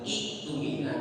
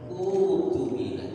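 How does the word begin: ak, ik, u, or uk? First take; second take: ik; u. First: The word begins with an i and k sound. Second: The word begins with a plain u sound. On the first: The speaker calls it wrong. "apalagi iktumina" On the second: The speaker calls it right.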